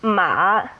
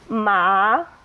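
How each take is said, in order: First: The pitch dips low, then comes back up. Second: The pitch rises through the syllable. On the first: It means horse. "with a low dip" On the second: It means hemp. "with a rising tone"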